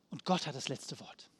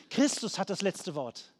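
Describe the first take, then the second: First: Softer, lower repeat with stress on Gott; quiet affirmation. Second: Said in the usual way. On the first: Real, not acted. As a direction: let the line settle low and quiet. (leise, tief nachklingend)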